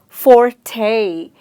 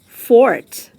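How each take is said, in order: First: The word is said with two syllables. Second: The word is said with one syllable. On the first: The speaker calls it wrong. "We break it into two syllables" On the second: The speaker calls it right. "it's only a monosyllabic word"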